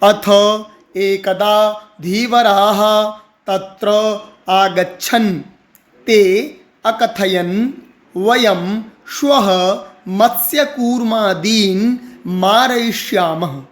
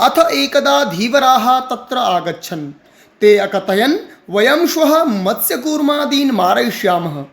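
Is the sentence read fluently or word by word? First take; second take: word by word; fluently. First: Each word is read separately with breaks between. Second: The words flow together as an expressive sentence. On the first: "अब बोलेंगे मैं एक एक शब्द" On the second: "भाव भाव के साथ, जैसे हम सेंटेंसेस को पढ़ते हैं"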